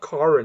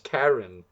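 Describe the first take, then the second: First: The name is said with an Afrikaans accent. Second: The name is said without an Afrikaans accent. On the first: The speaker calls it wrong. "I heard an Afrikaans guy say that he said Karen, and I was like, dude, it's not" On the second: The speaker calls it right.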